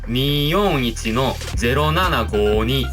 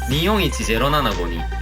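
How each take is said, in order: First: The digits two and five are stretched to two beats. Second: The digits two and five are said short. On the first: "한 글자로 되어 있는 숫자를 두 박자로 느려서 읽은" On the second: "아마 그냥 평범하게 읽으실 거예요"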